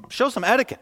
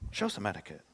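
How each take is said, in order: First: Higher, a touch of mock scolding; scolding crowd. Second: Softer, lower hushed rebuke; a quiet mocking echo of the crowd; mock hushing. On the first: Crowd scolds the blind man, mock scolding higher. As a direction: snip at him like a prim churchgoer. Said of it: "many rebuked him". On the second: Preacher echoes the crowd's rebuke, softer and lower. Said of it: "be a nice religious person and quiet down".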